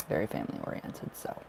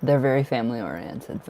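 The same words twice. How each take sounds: First: Soft whispered echo. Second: Said in the usual way. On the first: Real, not acted. Tarot reader echoing her own words to herself in a whisper. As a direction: whisper the phrase again, quick and low.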